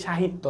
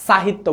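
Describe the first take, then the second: First: সাহিত্য said as "shahitto"; correct "sh" pronunciation. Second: সাহিত্য said as "sahitto"; wrong "s" pronunciation. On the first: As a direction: start সাহিত্য with a hushing "sh". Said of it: "আমরা বলি সাহিত্য". (সাহিত্য-র শুরুতে তালব্য "শ" (sh) ধ্বনি) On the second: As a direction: start সাহিত্য with a hissing "s". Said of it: "সাহিত্য বলি না". (সাহিত্য-র শুরুতে দন্ত্য "স" (s) ধ্বনি) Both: Shown as a demonstration.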